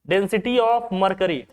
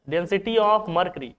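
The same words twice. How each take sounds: No difference in how they are said.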